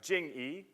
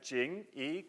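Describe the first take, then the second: First: The pitch falls on the word. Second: The pitch rises on the word. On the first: Showing respect to family. "as the fourth tone" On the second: Showing something else entirely. "second tone, going up"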